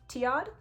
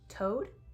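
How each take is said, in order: First: It has two syllables, like tee-ad. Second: It sounds like the one-syllable word toad. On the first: The speaker calls it right. "I'm gonna go with Tiad" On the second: The speaker calls it wrong. "Toad doesn't sound quite right"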